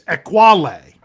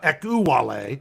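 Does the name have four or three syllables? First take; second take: three; four. First: The name is said with three syllables. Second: The name is said with four syllables. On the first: The speaker calls it right. "They have it as three" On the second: The speaker calls it wrong. "I've been saying four syllables"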